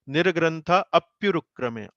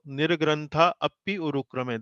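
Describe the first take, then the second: First: The vowels merge into one 'pyu' syllable. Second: The vowels stay separate, adding an extra syllable. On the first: The speaker calls it right. "A, P, Y and U, they combine together like this" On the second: The speaker calls it wrong. "That is not correct"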